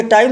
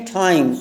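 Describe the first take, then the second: First: Said in the usual way. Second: "टाइम" with a puff of air on the T; bursting T. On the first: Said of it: "तो ये टाइम नहीं है". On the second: Shown as a demonstration. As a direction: burst the first sound of "टाइम", between टे and ठे. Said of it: "टे और ठे के बीच का साउंड". ("टाइम" का टे फटी आवाज़ में, ठे की ओर)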